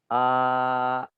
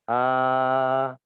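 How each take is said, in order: First: The vowel ends with a glottal catch. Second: The vowel ends openly, with the mouth staying wide. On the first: The speaker calls it wrong. "Kalau dia menyempit" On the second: The speaker calls it right.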